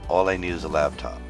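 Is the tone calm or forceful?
calm. It is said calmly, without extra attitude.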